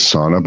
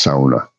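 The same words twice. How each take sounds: First: "sauna" as everybody says it, SAW-nuh; common pronunciation. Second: "sauna" the Finnish way, SOW-nuh; Finnish pronunciation. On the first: Pointing out what everybody says, "sauna" as SAW-nuh. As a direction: say "sauna" with an open "aw" first vowel. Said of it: "everybody says sauna". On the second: Correcting everybody on a Finnish word, "sauna" as SOW-nuh. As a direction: say "sauna" with "ow" as in cow. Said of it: "It's pronounced sauna". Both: Shown as a demonstration.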